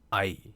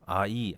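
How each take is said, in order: First: The vowels glide together as a single syllable. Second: The vowels are split into two separate syllables. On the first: The speaker calls it right. "그게 아니라 하나처럼 해야 돼요" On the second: The speaker calls it wrong. "제가 지금 큰일 날 짓을 한 거예요. 아이 그러면은 여러분 이게 음절이 두 개입니다"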